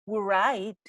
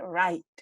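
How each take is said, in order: First: The word begins with a W sound. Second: The word begins with an R sound. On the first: The speaker calls it wrong. "you don't really say right" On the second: The speaker calls it right. "you say right"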